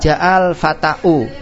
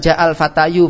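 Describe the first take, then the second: First: The last word ends in a glottal stop and u. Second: The last word ends in a y sound and u. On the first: The final letter would be a hamzah, not alif. "Tidak boleh untuk mengatakan ja'al fata'u" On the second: The final letter would be a ya, not alif. "Kalau antum baca ja'al fatayu, ... juga namanya bukan alif, itu adalah iya"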